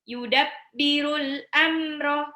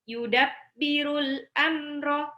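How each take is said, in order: The two takes are said the same way.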